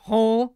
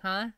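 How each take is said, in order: First: The huh is deep and guttural from the throat. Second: The huh is plain, without a throaty sound. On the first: The speaker calls it right. "You gotta get that guttural like" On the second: The speaker calls it wrong. "You can't just be like"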